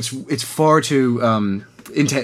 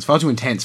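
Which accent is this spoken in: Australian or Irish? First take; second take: Irish; Australian. First: It is spoken in a light Irish accent. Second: It is spoken in an Australian accent. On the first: "I am doing an accent" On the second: "I'm going to speak Australian for a second"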